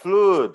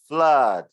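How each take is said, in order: First: The vowel is a long oo sound. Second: The vowel is short, rhyming with blood. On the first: The speaker calls it wrong. "it's not flood" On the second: The speaker calls it right. "it's flood"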